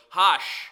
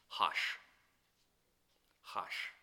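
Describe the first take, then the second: First: Sharp hush. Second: A breathy whispered hush. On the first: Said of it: "that told him just a second ago". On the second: Preacher voices the crowd hushing Bartimaeus, whispered. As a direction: shush him under your breath. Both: Retold or imitated.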